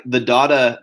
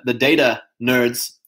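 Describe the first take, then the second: First: "data" said as DAH-tuh. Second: "data" said as DAY-tuh. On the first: Naming the number nerds, "data" pronounced DAH-tuh. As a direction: say "data" with a long "ah" in the first syllable. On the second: Naming the number nerds, "data" pronounced DAY-tuh. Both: Shown as a demonstration. Says data two different ways.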